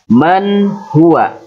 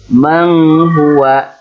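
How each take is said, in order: First: The n is pronounced clearly before the h sound. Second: The n is nasalized and blurred into the next sound. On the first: The speaker calls it right. "tapi man huwa" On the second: The speaker calls it wrong. "jangan menghuwa"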